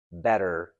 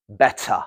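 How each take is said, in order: First: Better with a flapped t and a clear r at the end; American better, bedder; American pronunciation. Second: Better with a crisp t, no r, ending uh; British better, clear t; British pronunciation. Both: Shown as a demonstration.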